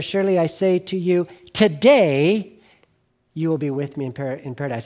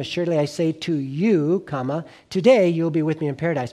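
First: The pause comes after the word today. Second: The pause comes before the word today.

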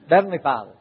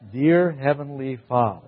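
First: It is said fast and slurred together. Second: It is said slowly and clearly.

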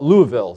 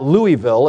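First: The name is pronounced the way locals say it. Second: The name is pronounced in a non-local way. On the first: The speaker calls it right. "The locals call it Louisville" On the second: The speaker calls it wrong. "It's not Louisville"

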